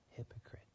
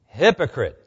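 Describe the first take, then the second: First: It is said mildly, without force. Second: It is said forcefully, as an exclamation.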